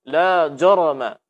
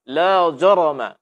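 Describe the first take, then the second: No difference in how they are said.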